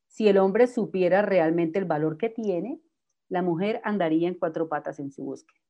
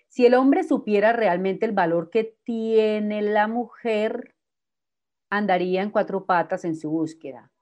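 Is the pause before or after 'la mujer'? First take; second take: before; after. First: The pause comes before 'la mujer'. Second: The pause comes after 'la mujer'.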